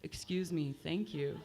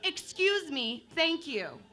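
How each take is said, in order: First: Low, soft flat monotone excuse me. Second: Lilting mock-sweet excuse me, thank you; sugar-coated but pushy; politely aggressive. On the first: Comic showing the monotone woman losing the standoff, lower and softer. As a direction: drone it with no melody at all. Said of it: "you'd be screwed if you were monotone". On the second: Comic contrasting the polite-aggressive take with the monotone one. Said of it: "It went a little something like this". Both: Shown as a demonstration.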